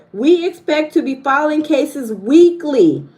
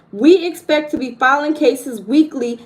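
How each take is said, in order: No difference in how they are said.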